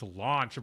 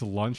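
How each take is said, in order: First: The name is said with an English-style vowel. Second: The name is said with a Japanese-style vowel. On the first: The speaker calls it right. "Actually, it's Launch, bro" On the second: The speaker calls it wrong. "using like the Japanese pronunciations"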